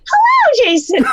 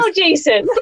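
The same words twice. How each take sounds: First: It is said imitating the interviewer's way of speaking. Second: It is said in the speaker's own natural voice.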